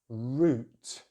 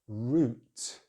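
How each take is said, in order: First: The vowel is a long rounded oo. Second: The vowel is a long rounded oo.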